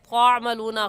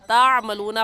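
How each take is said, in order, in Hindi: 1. पहली t ध्वनि भारी और मुतफ़ख़्ख़म है। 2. पहली t ध्वनि हल्की और सादी है। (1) "त्वामलूना गलत है" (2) "ता की जगह त्वा पढ़ना दुरुस्त नहीं है"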